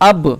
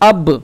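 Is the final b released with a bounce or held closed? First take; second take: bounce; bounce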